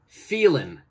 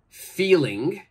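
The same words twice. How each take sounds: First: The final g sound is left off. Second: The final g sound is clearly pronounced. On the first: The speaker calls it right. "we say" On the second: The speaker calls it wrong. "we don't say"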